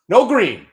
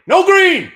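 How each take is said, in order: First: Chanted, high, loud "No green"; chanted, call out "No green" loud and high. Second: "No green" screamed far higher and louder; full scream. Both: Real, not acted. Chanting against the market.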